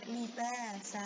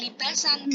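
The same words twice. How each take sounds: First: LIBASA with a long open final "a"; long-vowel stop reading. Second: LIBASAN short, with a sounded final n; tanwin reading, rejected. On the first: Teacher correcting a slip, long final vowel. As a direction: end "libasa" on a held vowel, no n. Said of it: "tapi libata, libasa". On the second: Teacher showing the wrong stop, short n ending. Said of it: "Tidak libasan". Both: Shown as a demonstration.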